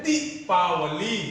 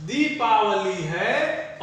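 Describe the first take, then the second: First: दीपावली with दी cut short, then slow; teacher's contrast take of दीपावली with short first vowel. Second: दीपावली very slow, दी held long; slow teaching model of दीपावली, long दी. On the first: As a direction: jerk the दी, then spell out the rest of दीपावली. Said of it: "झटके में जाएगा दी". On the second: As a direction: draw दीपावली out from its first vowel. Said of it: "दीपावली गलत होगा". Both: Shown as a demonstration.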